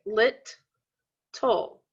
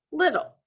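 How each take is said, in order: First: "lit, toll" said as two separate beats with a pause between; split into syllables. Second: Said in the usual way. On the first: Shown as a demonstration. Teacher showing students where little splits, syllable by syllable. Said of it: "I split it right down the middle". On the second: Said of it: "If I say it".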